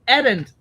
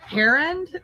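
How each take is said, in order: First: It is said with a Hungarian-style pronunciation. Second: It is said with an English-style pronunciation. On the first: "she gave it the accent of like Edend" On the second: "my pronunciation"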